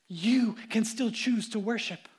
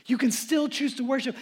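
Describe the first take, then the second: First: Gentle appeal. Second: Said in the usual way. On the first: Shown as a demonstration.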